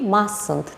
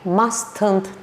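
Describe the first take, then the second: First: The first t sound is left silent. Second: The first t sound is pronounced. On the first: The speaker calls it right. "burada birinci tini biz tələffüz eləmirik" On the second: The speaker calls it wrong. "Mustn't deyil"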